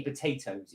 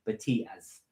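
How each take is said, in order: First: Said in the usual way. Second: Potatoes said Geordie-style as "Batias"; soft Geordie "Batias", ending in ee-uz; Geordie accent. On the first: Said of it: "if you say potatoes". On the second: Shown as a demonstration. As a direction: demonstrate a Geordie accent quietly. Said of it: "if you wanna do a Geordie accent".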